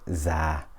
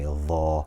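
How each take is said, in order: First: It is said with a z-like sound. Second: It is said with a dh-like sound. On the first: "or za" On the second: "we will say dha"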